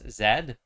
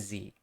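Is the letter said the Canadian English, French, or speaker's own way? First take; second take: French; own way. First: The letter is said the French way. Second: The letter is said the speaker's own way. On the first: "in French it's Z" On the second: "but I'm Z"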